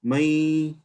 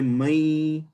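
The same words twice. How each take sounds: First: The final n is merged away. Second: The same.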